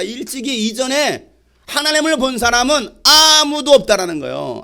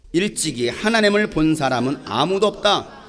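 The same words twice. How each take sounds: First: 아무도 drawn out long, high and loud; stress on 아무도. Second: Said in the usual way. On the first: Shown as a demonstration. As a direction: stretch 아무도 for emphasis, voice raised. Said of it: "자, 뭐라고 말하고 있습니까?". (아무도를 길게 끌며 높고 크게 강조) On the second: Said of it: "한번 찾아서 읽어보세요".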